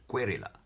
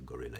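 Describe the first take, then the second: First: The word begins with a k sound. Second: The word begins with a g sound. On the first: A nervous student mispronounced the word. The speaker calls it wrong. "he pronounces it querilla" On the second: It is the intended word for a freedom fighter. The speaker calls it right. "warrior, gorilla, freedom fighter"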